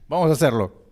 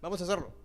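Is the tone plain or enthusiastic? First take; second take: enthusiastic; plain. First: It is said with enthusiasm. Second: It is said plainly, without enthusiasm.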